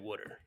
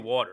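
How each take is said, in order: First: It is said in a Pennsylvania local accent. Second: It is said in a standard American accent. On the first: "how Pennsylvanians pronounce water" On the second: "I say water"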